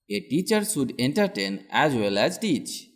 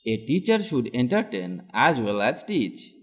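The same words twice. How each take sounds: The two takes are said the same way.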